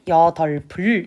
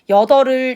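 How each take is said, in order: First: A b sound is heard before the ending. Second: No b sound is heard before the ending. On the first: The speaker calls it right. "하나는 냅두고 하나만 넘기라고" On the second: The speaker calls it wrong. "이렇게 하는 친구들이 많은데 아니죠"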